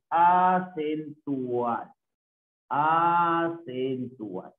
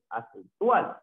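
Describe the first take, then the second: First: "acentual" drawn out syllable by syllable; teacher stretching "acentual" for note-taking; slow sounding-out. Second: Said in the usual way. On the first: Shown as a demonstration. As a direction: dictate "acentual" very slowly, stretching the A. Teacher spells out term slowly.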